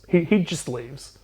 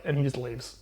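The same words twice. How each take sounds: First: "He, he just leaves" said slowly, each word leaned on; slow emphatic repeat. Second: Said in the usual way. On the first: Real, not acted. Recapping the plot to his co-host, slow deadpan emphasis. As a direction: drag out "he just leaves" for the punchline.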